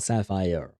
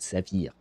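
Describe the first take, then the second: First: It is pronounced the English way. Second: It is pronounced the French way. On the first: "so she does pronounce it sapphire" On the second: "In French, we have the similar word, exactly the same word, except we pronounce it saphir"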